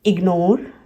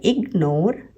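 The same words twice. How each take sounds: First: Said in the usual way. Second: ignore as इग, short gap, नोर; two teaching beats in ignore; split after G. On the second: Shown as a demonstration. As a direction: break ignore right after the G. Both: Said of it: "split हो रहा है".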